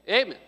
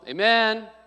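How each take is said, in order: First: The stress is on the first syllable. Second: The stress is on the second syllable.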